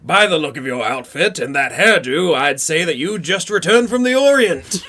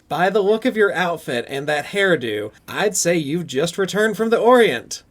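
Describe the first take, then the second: First: It is performed in Cunningham's imagined voice. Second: It is read in a plain voice.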